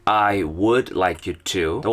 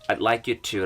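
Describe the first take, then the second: First: The word would is pronounced in full. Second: The word would shrinks to a d sound.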